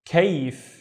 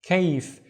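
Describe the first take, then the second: No difference in how they are said.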